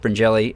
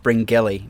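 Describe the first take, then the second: First: The middle G is sounded soft, like a 'j'. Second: The middle G is sounded hard, like in 'go'. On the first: This is how locals say it. The speaker calls it right. "It's got a G in it, but it's pronounced Bringelly" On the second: Someone else says it this way. The speaker calls it wrong. "as Jack Burnicle always mispronounces it"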